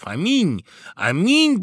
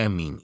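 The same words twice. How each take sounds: First: High, loud cheer rising in force; shouted exclamations. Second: Said in the usual way. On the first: A narrator's reading. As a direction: call out like rejoicing guests. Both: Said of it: "Это закричали званые гости".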